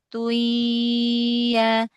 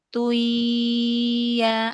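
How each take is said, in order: No difference in how they are said.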